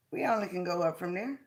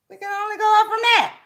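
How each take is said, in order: First: Quick, softer throwaway line before the build; soft quick first take. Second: Higher, quicker rousing restatement; rousing repeat. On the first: First telling the audience, softer and quick. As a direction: toss it off low and fast. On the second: Hyping the audience on the repeat, higher and rousing. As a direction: lift it up and fire it off. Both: Shown as a demonstration.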